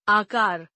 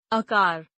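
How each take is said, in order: First: Said in the usual way. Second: आकार starting on short uh, "akaar"; mispronounced. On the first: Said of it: "शुद्ध". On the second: Shown as a demonstration. Teacher showing a vowel error, mispronounced with short first a. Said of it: "अशुद्ध".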